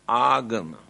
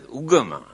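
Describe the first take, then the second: First: The first vowel sounds like 'ah'. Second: The first vowel sounds like 'uh'. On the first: This is the original form of the word. "the original word is agama" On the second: This is how people pronounce it locally now. "Here now they pronounce it as ugama"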